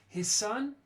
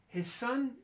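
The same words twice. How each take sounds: First: The final z of his becomes a voiceless s. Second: The final z of his becomes a voiceless s.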